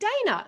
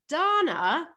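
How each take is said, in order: First: The name is said with an American pronunciation. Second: The name is said with an Australian pronunciation. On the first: This is how others in the US say the name. "Americans call me Dana" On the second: This is how the name is properly said. "my name is pronounced Dana"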